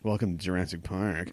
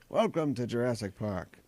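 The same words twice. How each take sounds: First: It is said in a sarcastic, mocking tone. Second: It is said in a sincere, wondering tone. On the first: The speaker mocks the idea. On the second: The speaker is truly amazed.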